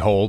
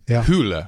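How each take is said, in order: First: The vowel sounds like 'oh', as in hole. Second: The vowel sounds like 'oo', as in who. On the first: The speaker calls it wrong. "an American would pronounce it Harry Hole" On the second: The speaker calls it right. "but it's Hule"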